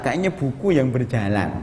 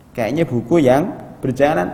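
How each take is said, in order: First: Said in the usual way. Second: Louder emphatic repeat. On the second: Shown as a demonstration.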